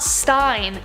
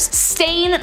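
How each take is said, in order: First: The vowel sounds like the one in 'line'. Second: The vowel sounds like the one in 'rain'. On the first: This is how many people remember the name. The speaker calls it wrong. "not Stein" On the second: This is the name's real form. The speaker calls it right.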